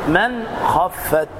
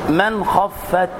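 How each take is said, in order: No difference in how they are said.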